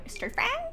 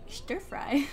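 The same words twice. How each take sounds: First: "Stir fry?" asked with a high, sharp rise on "fry"; high questioning "Stir fry?"; puzzled question. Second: Said in the usual way. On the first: Real, not acted. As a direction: repeat it back in disbelief. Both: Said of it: "there is some stir fry".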